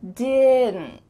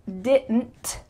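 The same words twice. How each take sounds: First: The final T is stopped with no air. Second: The final T is released with air. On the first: "my tongue is at the top of my mouth because I need to form that T sound without any air passing through" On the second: "I didn't say didn't. I didn't make that final puff of air"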